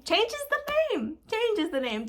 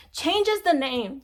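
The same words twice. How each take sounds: First: Mock squeaky voice. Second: Said in the usual way. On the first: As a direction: jump way up high and slow for changes the name. Mocking the copier's act.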